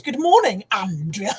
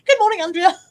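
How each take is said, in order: First: Odd voice. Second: Plain redo. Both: Shown as a demonstration. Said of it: "I didn't mean to say that like that".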